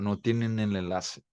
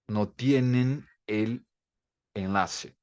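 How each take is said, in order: First: The words are joined together without breaks. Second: Each word is said separately with small breaks. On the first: The speaker calls it right. "Agora junta a última palavra" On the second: The speaker calls it wrong. "Mas ninguém fala assim"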